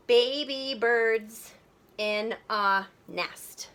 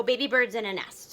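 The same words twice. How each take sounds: First: Very slow, syllables drawn apart; counting out syllables. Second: Said in the usual way. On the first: Shown as a demonstration. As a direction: break it into separate beats, slowly. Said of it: "let's count the syllables". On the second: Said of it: "So let's count the syllables".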